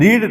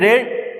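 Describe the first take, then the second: First: The vowel is a long 'ee' sound. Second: The vowel is a short 'e' sound. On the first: It is the present-tense form. "रीड रीड और रेड इसको बोलते हैं, spelling लेकिन same रहती है।" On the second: It is the past-tense form. "रीड रीड और रेड इसको बोलते हैं"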